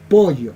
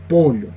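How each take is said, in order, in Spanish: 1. La consonante del medio es un sonido Y. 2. La consonante del medio es un sonido LL. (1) "Ellos lo pronuncian de esta forma" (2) "Como todo un coscoruna, pollo, de manera correcta"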